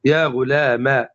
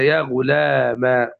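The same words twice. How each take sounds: First: Slow يا غلام ending in "a", ghulama; fatha without alif. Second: Slow يا غلام said ghulamaa, long final "aa"; alif ending. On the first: Teacher giving the sixth form, slow يا غلام ending "-ma". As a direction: close يا غلام on the fatha vowel. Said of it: "بحذف الألف". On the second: Teacher giving the fifth form, slow long "-maa" on يا غلام. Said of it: "فتقلب الياء ألفا". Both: Shown as a demonstration.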